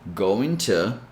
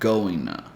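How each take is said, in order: First: The t in 'to' is a clear t. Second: The t is dropped and joined to n. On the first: "you can still pronounce this with the T sound" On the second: "completely drop the T sound and connect with the N sound"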